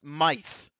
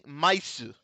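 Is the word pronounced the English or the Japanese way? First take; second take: English; Japanese. First: One syllable ending in a th sound. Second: Two syllables ending in an s sound. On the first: "it's actually pronounced myth" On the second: "if you look at it in Japanese pronunciation"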